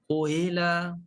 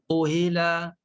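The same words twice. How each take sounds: First: The middle sound is a clear, full h. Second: The same.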